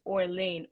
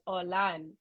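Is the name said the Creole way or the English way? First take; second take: English; Creole. First: The name is said with an English pronunciation. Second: The name is said with a Creole pronunciation. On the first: "And in English, it's Orlane" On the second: "so in Creole it's Orlan"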